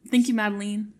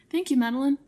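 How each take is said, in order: First: Madeline said with a long "leen" at the end; joking mispronunciation. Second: Madeline ending in a short "lun" or "lin"; correct name pronunciation. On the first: Pretend. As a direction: teasingly say Madeline as MAD-uh-leen. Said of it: "Just kidding". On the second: Real, not acted. Contrasted with joking mispronunciation next.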